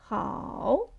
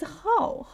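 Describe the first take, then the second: First: "how" dipping down, then rising; third tone. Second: "how" starting high and dropping sharply; falling tone. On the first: Teacher showing learners the turning tone, third tone. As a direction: draw "how" down and turn it back up. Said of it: "First go down and then go up". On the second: Teacher contrasting it with third tone, falling tone. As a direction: hit "how" high, then let it fall. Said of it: "How is falling tone". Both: Shown as a demonstration.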